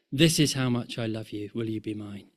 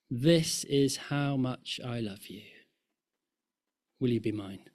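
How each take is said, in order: First: Said in the usual way. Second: Tender proposal. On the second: Acted. Voicing God's proposal from cross.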